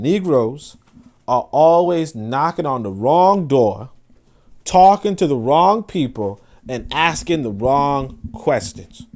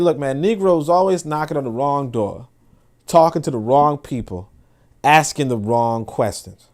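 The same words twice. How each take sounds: First: Slow, each phrase weighed, stress on wrong; solemn slow repetition, leaning on wrong; slow emphatic repeat. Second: Said in the usual way. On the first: Shown as a demonstration. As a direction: drive the maxim home word by word. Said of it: "I'll say it again". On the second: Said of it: "he said".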